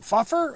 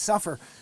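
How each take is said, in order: First: The word begins with an f sound. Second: The word begins with an s sound. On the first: The speaker calls it wrong. "suffer is F U F F E R. You're like, what, fuffer?" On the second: The speaker calls it right. "oh yeah, that's right, it's an S"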